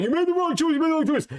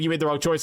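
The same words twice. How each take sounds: First: Much higher, squeaky mock of nagging viewers. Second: Said in the usual way. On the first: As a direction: whine it like a know-it-all fan. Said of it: "viewers are like". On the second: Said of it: "Is he saying, like".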